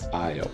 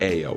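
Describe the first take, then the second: First: The name begins with an 'eye' sound. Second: The name begins with an 'ay' sound. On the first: The speaker calls it right. "it's I O" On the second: The speaker calls it wrong. "It's not A O"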